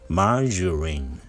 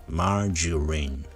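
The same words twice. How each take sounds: The two takes are said the same way.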